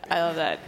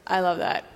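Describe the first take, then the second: No difference in how they are said.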